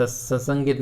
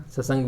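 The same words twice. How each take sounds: First: ससंगित with an added -it ending; incorrect form. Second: ससंग ending on the g, no -it; correct form. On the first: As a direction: end ससंगित on git. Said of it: "नहीं बनता". (गलत रूप ससंगित, अंत में 'गित') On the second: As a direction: stop ससंग right after sang. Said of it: "बनेगा". (सही रूप ससंग, अंत में 'ग') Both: Shown as a demonstration.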